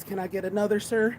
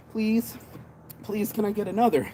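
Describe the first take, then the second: First: Lightly voiced customer politely asking for more, higher; a hint of an eager buyer asking for another; begging customer. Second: Hammed-up begging for one more; pleading customer. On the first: Customer begging the seller for another, mildly pleading. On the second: Customer begging the seller for another, mock pleading.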